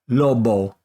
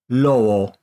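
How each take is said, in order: First: The lips close fully for a hard b. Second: The lips stay apart for a soft b. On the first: The speaker calls it wrong. "I'm going to incorrectly say it by letting my lips touch to make the B sound" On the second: The speaker calls it right. "and then say it without touching"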